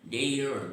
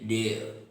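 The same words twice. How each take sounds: First: The final R sound is clearly pronounced. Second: The final R sound is left silent. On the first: "Americans never have R silent while pronouncing" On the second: "But the Britishers, they say dare"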